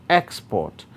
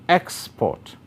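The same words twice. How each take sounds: First: The stress is on the first syllable. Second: The same.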